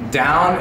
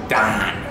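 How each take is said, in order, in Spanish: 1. La vocal es el diptongo estándar 'ow'. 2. La vocal es un sonido 'ah' plano.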